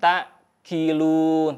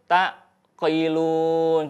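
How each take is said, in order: First: The q sound is light, almost a k. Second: The q sound is overdone and stretched. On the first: "Kalau enteng tak kilun tertukar" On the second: "Kalau berlebih tak qailun jadi kui ya"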